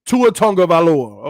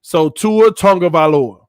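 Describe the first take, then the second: First: "Tua Tagovailoa" with a plain "Tago" start; first try at "Tua Tagovailoa", unsure; "Tua Tagovailoa" said the wrong way; wrong pronunciation. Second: "Tua Tagovailoa" with "Tagovailoa" starting like tongue; "Tua Tagovailoa" with a nasal "tong" start; corrected pronunciation. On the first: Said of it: "you saying it wrong". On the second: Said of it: "So tongue is the key". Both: Shown as a demonstration.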